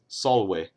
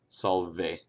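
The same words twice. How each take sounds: First: The consonant after the L sounds like W. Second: The consonant after the L sounds like V. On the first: The speaker calls it right. "all V's make a W sound" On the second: The speaker calls it wrong. "not salve"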